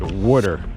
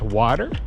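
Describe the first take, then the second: First: The first vowel sounds close to 'oo'. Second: The first vowel is an open 'ah' sound. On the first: This is how people from that home region say it. "We pronounce it water, almost spelled like W O O T E R" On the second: This is how most people say it. "I know it's pronounced water"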